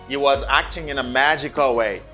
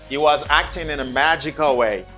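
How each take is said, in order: Both takes have the same delivery.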